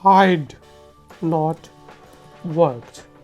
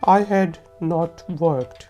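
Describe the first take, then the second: First: I and had merge into one word. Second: Had and not are both said in full.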